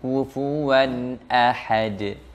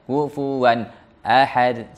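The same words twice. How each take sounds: First: The two words flow together without a break. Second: There is a break between the two words. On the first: The speaker calls it right. "tetap dia bersambung, mengalir" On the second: The speaker calls it wrong. "ini izhar yang salah. Izhar yang sampai memutuskan bacaan"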